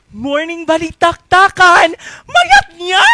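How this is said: It is said in a happy way.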